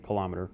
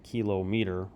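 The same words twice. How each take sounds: First: The word is said as one run-together unit. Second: The word is split into kilo plus meter. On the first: The speaker calls it right. "we say kilometer" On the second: The speaker calls it wrong. "we don't say kilometer"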